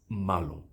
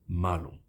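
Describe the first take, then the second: No difference in how they are said.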